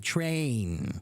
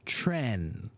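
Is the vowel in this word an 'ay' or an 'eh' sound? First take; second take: ay; eh. First: The vowel is a long 'ay' sound. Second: The vowel is a short 'eh' sound. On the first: The speaker calls it right. "You have to have the letter A in there" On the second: The speaker calls it wrong. "the mouth is too small, so it sounds more like tren"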